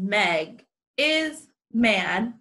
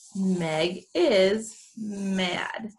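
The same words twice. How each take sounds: First: Each word is said separately, like a robot. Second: The words flow together as one phrase. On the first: The speaker calls it wrong. "I sound like a robot" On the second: The speaker calls it right. "That's my scoop"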